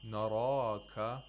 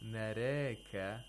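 First: Every letter is pronounced heavy and full. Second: Every letter is pronounced thin and light. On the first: "you're pronouncing all of them with tafkhim" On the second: "You're pronouncing all the letters with thinness"

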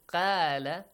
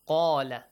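First: The first consonant is light and thin. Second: The first consonant is heavy and deep.

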